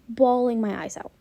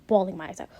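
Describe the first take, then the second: First: "Bawling" drawn out, slow and emphatic; emphatic repeat. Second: Said in the usual way. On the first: Real, not acted. Fan stressing how hard she cried, "Bawling" slow and emphatic. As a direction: stretch "Bawling" and lean hard on it.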